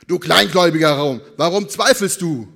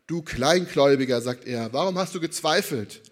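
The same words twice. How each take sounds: First: Very loud, hammed-up rebuke; thundering mock reproach; exaggerated scolding. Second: Said in the usual way. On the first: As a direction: berate the doubter at full volume. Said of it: "wirklich extrem überspitzt gemalt". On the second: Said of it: "so habe ich meistens gelesen".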